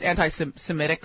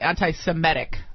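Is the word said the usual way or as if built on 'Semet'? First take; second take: usual; Semet. First: The word is pronounced the usual way. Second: The word is pronounced as if built on 'Semet'.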